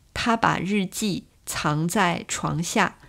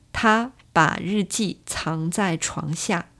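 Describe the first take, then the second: The two takes are said the same way.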